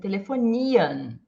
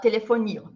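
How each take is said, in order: First: The final i vowel is long and drawn out. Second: The final i vowel is short. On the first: The speaker calls it right. "mas sim telefonia" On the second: The speaker calls it wrong. "A gente não fala telefonia"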